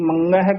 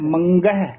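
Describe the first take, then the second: First: The middle consonant is a nasal ng sound. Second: The middle consonant is a plain g sound. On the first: The speaker calls it wrong. "ਨੰਗਾ ਲਾ ਜਾਂਦੇ ਹਨ" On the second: The speaker calls it right. "ਗੱਗਾ ਸ਼ੁੱਧ ਉਚਾਰਨ ਕਰਨਾ ਹੈ"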